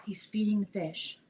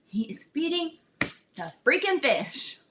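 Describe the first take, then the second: First: Said in the usual way. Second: FEEDING and FREAKING drawn out with force; slow down and punch IS FEEDING the FREAKING fish; emphatic repeat. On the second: Real, not acted. Telling friends about the guide, incredulous slow emphasis.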